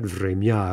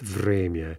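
First: The stress falls on the second syllable. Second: The stress falls on the first syllable. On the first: The speaker calls it wrong. "It's not время" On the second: The speaker calls it right. "it's время. So check the stress on that word"

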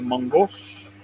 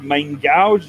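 First: It is said with a French pronunciation. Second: It is said with an anglicized pronunciation. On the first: The speaker calls it right. "it's a mangouche" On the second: The speaker calls it wrong. "It's not a main gouge"

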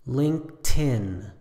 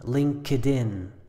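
First: The word is said with two syllables. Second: The word is said with three syllables. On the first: The speaker calls it right. "it's just two syllables, and you can leave out the K and put the T right on the next word" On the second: The speaker calls it wrong. "The incorrect pronunciation sounds like LinkedIn"

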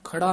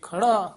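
First: The word is said lightly, without strong emphasis. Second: The word is said heavily, with strong emphasis. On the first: The speaker calls it wrong. "ਖੜਾ ਨਹੀਂ ਕਹਿਣਾ ਹੈ" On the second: The speaker calls it right. "ਇਹ ਖੜਾ ਭਾਰਾ ਪਦ ਉਚਾਰਨ ਕਰਨਾ ਹੈ"

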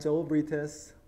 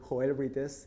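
First: The name is pronounced in an English way. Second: The name is pronounced in a Spanish way.

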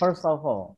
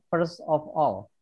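First: The words are linked into one smooth unit. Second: Each word is said separately, not linked. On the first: The speaker calls it right. "Tapi ini digabung bacanya" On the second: The speaker calls it wrong. "ini tidak dibaca first of all"

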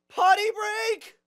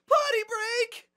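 First: It is said with little excitement. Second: It is said with much more excitement.

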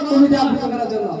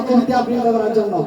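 No difference in how they are said.

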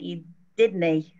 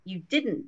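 First: It is said in a clipped Scottish accent. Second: It is said in a standard, fully pronounced accent. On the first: "in Edinburgh, it sounds like" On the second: "instead of saying"

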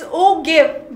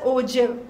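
First: The g is said as a hard g. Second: The g is said as a j. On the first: The speaker calls it wrong. "It's G" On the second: The speaker calls it right. "but we pronounce it as J"

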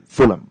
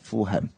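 First: The middle h sound is left out. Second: The middle h sound is pronounced. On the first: The speaker calls it right. "应该是 Fulham" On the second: The speaker calls it wrong. "不是 Fulham"

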